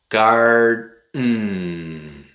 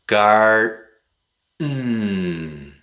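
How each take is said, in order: No difference in how they are said.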